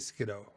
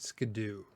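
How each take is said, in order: First: The ending sounds like the word kiddo. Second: The ending sounds like the word do. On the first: "I say Skiddo because like kiddo" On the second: "Skidoo because it says do at the end"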